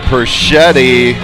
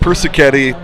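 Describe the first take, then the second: First: The name is said with three syllables. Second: The name is said with four syllables. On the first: The speaker calls it wrong. "I've been saying it wrong all along" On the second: The speaker calls it right. "Persichetti, not Perschetti"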